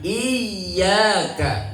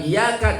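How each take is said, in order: First: The y sound is pressed and doubled. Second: The y sound is short and single. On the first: The speaker calls it right. "ditekan dulu ya-nya karena ada tasdid" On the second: The speaker calls it wrong.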